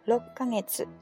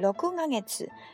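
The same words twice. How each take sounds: First: Six is shortened to rok with a doubled k. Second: Six is said fully as roku before kagetsu. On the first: The speaker calls it right. "所以就6 ヶ月" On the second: The speaker calls it wrong. "这个く，如果读6 ヶ月，这个读起来太费力了"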